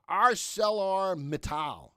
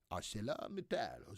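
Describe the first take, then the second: First: Said in the usual way. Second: Low, soft mock-French accent. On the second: Host playfully tries a stock name as French, French accent. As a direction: put on a French pronunciation of the name. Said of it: "That's my French accent".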